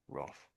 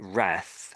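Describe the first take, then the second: First: It is said with a British accent. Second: It is said with an American accent. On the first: "I think Brits say Roth" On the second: "the Americans say wrath"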